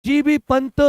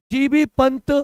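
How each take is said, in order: Both takes have the same delivery.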